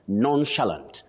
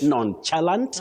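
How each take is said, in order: First: The stress is on the first syllable. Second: The stress is not on the first syllable. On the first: The speaker calls it right. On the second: The speaker calls it wrong.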